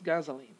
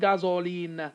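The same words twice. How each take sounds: First: The middle vowel is reduced to schwa. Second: The middle vowel is full, not reduced. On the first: The speaker calls it right. "Here we're going to have a schwa too" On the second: The speaker calls it wrong. "It's not gasoline"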